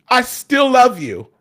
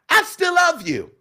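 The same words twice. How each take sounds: First: It is said in a full, bold voice. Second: It is said in a bright, pingy voice.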